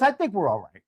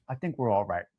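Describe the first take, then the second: First: Said in the usual way. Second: Much lower and softer, muttered to himself; a low muttered aside. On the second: Shown as a demonstration. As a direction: drop it way down under his breath.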